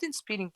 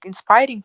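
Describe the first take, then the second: First: "inspiring" with "speer" in the middle; mistaken pronunciation. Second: "Inspiring" with "spire" in the middle; corrected pronunciation. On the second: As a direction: say "Inspiring" as "in-SPY-ring". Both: Shown as a demonstration. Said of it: "it's not inspiring".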